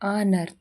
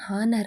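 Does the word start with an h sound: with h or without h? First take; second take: without h; with h. First: The word begins directly with a vowel sound. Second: The word begins with an audible h sound. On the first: The speaker calls it right. "ಆದರೆ ನಿಜವಾಗಿ ಅದನ್ನು pronunciation ಆನರ್. ಇಲ್ಲಿ ಹೆಚ್ silent ಆಗಿರುತ್ತೆ" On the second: The speaker calls it wrong. "ಇದನ್ನು ನಾವು ಕೆಲವೊಮ್ಮೆ ಹಾನರ್ ಅಂತ ಓದ್ತೀವಿ"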